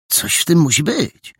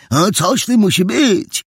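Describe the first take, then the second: First: Suspicious, raised-pitch remark; intrigued, moderately high; pondering conclusion. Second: Put-on high, childish echo; squeaky-young, keen repetition; smallest boy detective. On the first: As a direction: conclude there is a mystery here. First boy concludes, later echoed. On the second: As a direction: parrot it eagerly in a little boy's high voice. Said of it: "powtórzył najmniejszy z trzech detektywów". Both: A narrator's reading.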